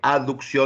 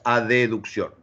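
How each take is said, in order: First: It is said with no extra vowel inserted. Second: It is said with an extra e vowel inserted. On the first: "en vez de aducción" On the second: "decimos adeducción"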